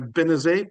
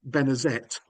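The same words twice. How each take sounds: First: The name is said with a silent final T. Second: The name is said with a pronounced final T. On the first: This is the original French form of the name. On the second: This is the later English form of the name.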